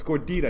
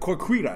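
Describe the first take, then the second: First: The word starts with a G sound. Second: The word starts with a K sound. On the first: The speaker calls it right. "you're saying it wrong. It's Gordita" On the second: The speaker calls it wrong. "He's like"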